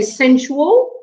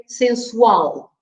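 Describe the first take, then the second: First: Said in the usual way. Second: Sensual said sen-SUAL, last part stressed; stress on the end of sensual. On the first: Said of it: "but in Portuguese you say sensual". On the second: Shown as a demonstration. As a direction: put the weight on the final syllable of sensual. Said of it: "You stress the last part".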